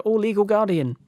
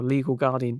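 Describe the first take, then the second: First: High-pitched mock little kid; child's sing-out in a much higher pitch; four-year-old child. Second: Said in the usual way. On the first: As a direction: call out like a small child. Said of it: "if you're a four-year-old". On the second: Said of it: "You probably wouldn't go".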